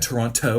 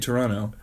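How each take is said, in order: First: The second T sound is clearly pronounced. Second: The second T sound is dropped. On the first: An American is saying the name. The speaker calls it wrong. "Every time an American says it in the movie, they say Toronto" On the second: A Canadian is saying the name. The speaker calls it right. "every time a Canadian says it, they say Toronto"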